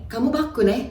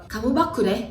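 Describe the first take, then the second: The two takes are said the same way.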